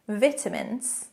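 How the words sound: It is pronounced the British way.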